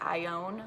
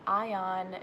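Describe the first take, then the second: First: The name sounds like 'I own'. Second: The name does not sound like 'I own'. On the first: The speaker calls it right. "like I own a car" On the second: The speaker calls it wrong. "it's not Ion"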